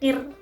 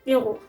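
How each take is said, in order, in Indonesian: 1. Bunyi r diucapkan tipis, lidah datar. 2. Bunyi r diucapkan tebal, lidah membentuk cekungan. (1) "kalau kir itu tipis" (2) "kiru harusnya ya"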